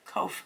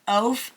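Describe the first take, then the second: First: The word starts with a K sound. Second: The word starts with a vowel sound. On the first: The speaker calls it right. "That's a Q" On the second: The speaker calls it wrong. "sorry I pronounced that wrong"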